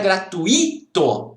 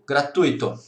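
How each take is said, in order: First: The stress falls on the I. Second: The stress falls on the U. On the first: The speaker calls it wrong. "Não é gratuito" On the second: The speaker calls it right. "A sílaba tônica é no U"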